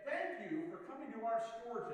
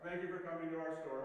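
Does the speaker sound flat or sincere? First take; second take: sincere; flat. First: It is said in a warm, sincere way. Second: It is said in a flat, uncaring way. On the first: The speaker truly means the thanks. The speaker calls it right. "and they really meant it" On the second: The words are said without real feeling. The speaker calls it wrong. "that just doesn't do anything"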